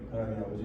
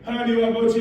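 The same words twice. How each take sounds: First: It is said quietly. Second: It is said loudly.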